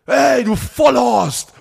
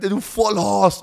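First: Higher, louder, drawn-out insult shout; angry cyclist's yell, hammed up; mock yell. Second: Higher, slower "du Vollhorst"; mild mock yell; retold insult. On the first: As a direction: bellow it like the cyclist flying past. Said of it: "in so einer Sekunde". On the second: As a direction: repeat the cyclist's insult, a bit milder. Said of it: "du, ja, du".

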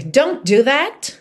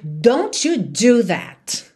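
First: Slow, firm warning; mother telling off her son, stern. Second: Very slow, stern scolding; angry mother forbidding her child, very slow. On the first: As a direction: scold the child slowly. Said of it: "mas é muito mais comum uma mãe brava dizer". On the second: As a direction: lean on every word, warning the child. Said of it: "uma mãe brava dizer". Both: Shown as a demonstration.

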